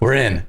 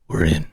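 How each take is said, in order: First: It is said in an ordinary everyday voice. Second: It is said in a put-on dramatic voice.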